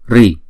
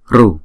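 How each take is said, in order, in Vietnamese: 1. Âm r được theo sau bởi âm i. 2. Âm r được theo sau bởi âm u. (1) "Miền Bắc Ấn Độ thì đọc là Ri" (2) "Miền Nam Ấn Độ đọc là Ru"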